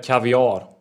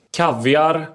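First: "kaviar" stressed on the last syllable; variant pronunciation. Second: "Kaviar" stressed on the first syllable; variant pronunciation. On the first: Host offers rival pronunciations, "kaviar" with final stress. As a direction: say "kaviar" as kav-i-AAR. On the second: Host offers rival pronunciations, "Kaviar" with first-syllable stress. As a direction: say "Kaviar" as KAV-yar. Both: Shown as a demonstration. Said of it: "Kaviar eller kaviar?".

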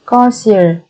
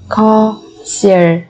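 First: Said in the usual way. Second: Slow, separated syllables for learners; careful teacher's slow model. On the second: Shown as a demonstration. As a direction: spell it out slowly, beat by beat.

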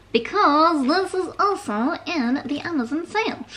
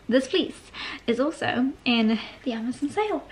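First: Silly high, wobbly put-on voice; playful, raised, sing-song silliness; weird voice. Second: Said in the usual way. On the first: Real, not acted. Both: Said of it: "that weird voice".

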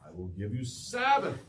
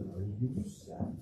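First: Said in the usual way. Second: Softer, tender retake of the promise; gentle repeat. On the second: Shown as a demonstration. Preacher repeats God's promise to congregation, softer and tender. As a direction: ease into it like a comfort. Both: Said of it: "Yeah, Sabbath".

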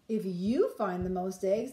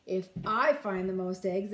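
First: You said with weight and a rising lift; stress on you. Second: I said with weight, claiming the prize; stress on I. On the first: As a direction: lean on "you" to point at Max. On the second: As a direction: lean on "I" to point at herself. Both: A narrator's reading. Ruby tricking Max.

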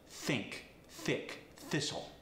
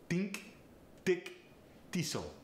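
First: Said in the usual way. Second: Think, thick, thistle said tink, tick, tistle; Farsi accent. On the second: Shown as a demonstration. Coach demonstrating a Farsi accent, tink, tick, tistle. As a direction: Farsi accent, a plain T for the voiceless th. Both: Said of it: "The voiceless T H gets replaced with a T".

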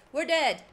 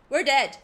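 First: Said in the usual way. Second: Loud alarmed we're dead; panicked announcement; loud doom cry. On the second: Real, not acted. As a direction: shout the doom out. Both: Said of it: "repeated doom line".

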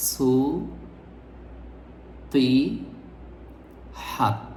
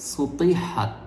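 First: "সু, তি, হাত" with a long pause after each syllable. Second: "সুতিহাত" run together as one word; joined-up correct pronunciation. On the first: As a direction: break "সু, তি, হাত" into three separate pieces. ("সু, তি, হাত" ভেঙে ভেঙে, থেমে থেমে) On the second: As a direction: say "সুতিহাত" whole, no breaks between syllables. ("সুতিহাত" একটানা, না ভেঙে) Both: Shown as a demonstration. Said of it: "শব্দটির সঠিক উচ্চারণ হবে".

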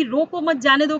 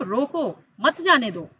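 First: "रोको मत जाने दो" run straight through; no pause marked. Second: "रोको" cut off from "मत जाने दो"; pause after रोको. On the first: Teacher quotes what was said before, no pause marked. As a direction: keep रोको मत जाने दो in one unbroken phrase. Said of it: "कह रहे थे". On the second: Teacher tells pupils what they are saying now, pause after रोको. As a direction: break after रोको, then मत जाने दो together. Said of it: "आप बोल रहे हैं आप". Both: Shown as a demonstration.

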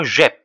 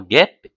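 First: "جيب" begun with a soft French j sound, zh; soft G without U. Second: "guêpe" begun with a hard g, as in go. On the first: Teacher shows guêpe misread without U, soft zh opening "جيب". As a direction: say "جيب" as zhep, soft g and open è. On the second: Teacher shows what the U does, hard g in "guêpe". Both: Shown as a demonstration. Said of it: "ici, on supprime U".

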